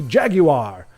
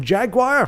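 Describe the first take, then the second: First: "Jaguar" as JAG-you-ar, three syllables; insisted British pronunciation. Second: "Jaguar" as JAG-wahr, two syllables; mock the American "Jaguar" with a raised pitch; silly American pronunciation. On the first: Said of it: "It must be Jaguar". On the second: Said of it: "that sounds silly". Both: Shown as a demonstration.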